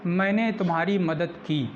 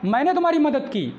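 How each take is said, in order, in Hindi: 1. यह सरल, सामान्य तरीके से कहा गया है। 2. यह ज़ोरदार, आग्रह भरे ज़ोर के साथ कहा गया है। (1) "नॉर्मल सेंटेंस होगा, एम्फैटिक नहीं होगा" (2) "एम्फैटिक दबाव डालकर"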